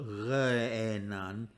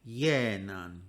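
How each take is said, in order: First: The word begins with an r-like sound. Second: The word begins with a y sound. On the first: The speaker calls it wrong. "It's not re'enan" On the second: The speaker calls it right. "pronounced as a y sound"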